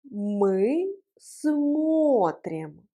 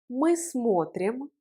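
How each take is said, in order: First: Extremely slow, long held vowels; slow model pronunciation. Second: Said in the usual way. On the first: Shown as a demonstration. Teacher leading learners through the conjugation, very slow model. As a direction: stretch both words right out. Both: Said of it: "Prononçons ensemble la conjugaison".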